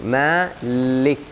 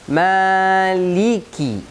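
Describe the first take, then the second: First: The word ends on a bare k sound. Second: The word ends with a short i vowel. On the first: The speaker calls it wrong. "Baca huruf lam dan huruf kaf sukun" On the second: The speaker calls it right.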